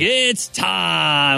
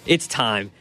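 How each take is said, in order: First: It is said in a put-on announcer voice. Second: It is said in his normal speaking voice.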